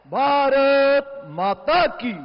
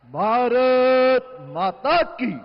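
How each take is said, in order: First: Higher, slow, loud rally call; roaring rallying speech. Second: Slow, loud rally call; roaring rallying speech. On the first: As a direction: roar it out even higher. Speaker repeats slogan. (ऊँचा गरजता नारा) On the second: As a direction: roar it out to the crowd. Speaker opens with slogans. (गरजता हुआ नारा) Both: Real, not acted.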